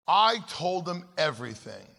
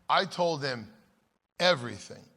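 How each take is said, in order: Both takes have the same delivery.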